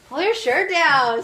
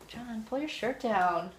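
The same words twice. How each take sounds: First: Louder, higher, slower order; louder firm repeat. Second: Said in the usual way. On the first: Real, not acted. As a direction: say it again, firmer and louder.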